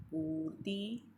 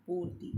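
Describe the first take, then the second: First: "पूर्ति" slow, ending in rising -tee; slow wrong-form demo, long ee closing "पूर्ति"; mispronounced long i. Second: Said in the usual way. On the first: Shown as a demonstration. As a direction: draw out the last vowel of "पूर्ति". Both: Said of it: "छोटी ई के स्थान पर बड़ी ई".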